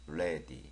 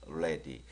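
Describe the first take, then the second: Both takes have the same delivery.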